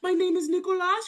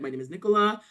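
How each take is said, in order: First: It is said in a put-on babyish voice. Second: It is said in a clear, natural voice.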